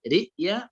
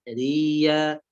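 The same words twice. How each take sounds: First: رئيا with a glottal stop; hamza sounded in رئيا. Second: ريا with hamza merged into ya; slow ريا, hold the doubled ya. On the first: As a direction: catch the throat before ya in رئيا. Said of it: "إبدال الهمزة بالياء". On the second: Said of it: "مع التشديد". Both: Shown as a demonstration.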